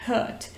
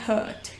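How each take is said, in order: The two takes are said the same way.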